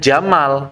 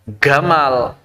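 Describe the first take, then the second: First: The name begins with a J sound. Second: The name begins with a G sound.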